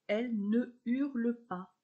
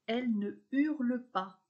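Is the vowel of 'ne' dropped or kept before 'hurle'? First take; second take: kept; kept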